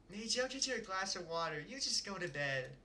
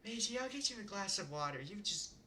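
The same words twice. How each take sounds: First: Lightly voiced caring mother; a gentle mom sending her kid back to bed; settled mom voice. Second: Testing out a gentle mother voice; first try at the mom voice. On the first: Reader settles into the mom voice for the line. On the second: Reader practising the mom's line before reading it. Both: Shown as a demonstration. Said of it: "trying to perfect this voice".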